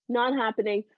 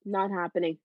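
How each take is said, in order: First: "Not happening" said louder, stress on "Not"; standing her ground and refusing for good; firm emphatic repeat. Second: Said in the usual way. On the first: Real, not acted. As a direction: punch "Not" like a final refusal.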